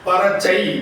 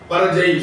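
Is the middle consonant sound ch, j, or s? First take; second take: ch; j. First: The middle consonant is a hard ch sound. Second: The middle consonant is a voiced j sound. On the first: "சா பரச்சை வராது" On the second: "பரஜை சொல்ல முடியாது"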